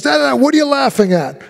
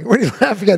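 First: Mock yell, pitched higher; half-performed angry shout; retold yelling. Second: Breaking into a laugh mid-line; can't keep a straight face; a retold line broken by a laugh. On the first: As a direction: bark it at the kid like an angry actor. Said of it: "he's right yelling". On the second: Actor cracks up mid-line.

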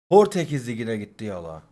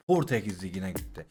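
First: Said in the usual way. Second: Much lower and softer, under the breath; resigned mutter. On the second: Real, not acted. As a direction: let it drop to yourself, defeated. Repeats pack result, then mutters it. (kendi kendine alçak sesle mırıldanarak)

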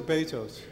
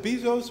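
First: Bezos said BAY-zohs, with an ay vowel; BAY-zos pronunciation. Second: Bezos said BEE-zohs, with a long ee; BEE-zos pronunciation. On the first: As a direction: say Bezos with "bay" as first syllable. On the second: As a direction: say Bezos with "bee" as first syllable. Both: Shown as a demonstration. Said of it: "Is it Bezos or Bezos?".

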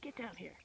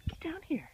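First: Low whisper, urging; low coaxing whisper. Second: High breathy whisper, coaxing; coaxing whisper to a squirrel. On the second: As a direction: whisper it to lure him down. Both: Real, not acted.

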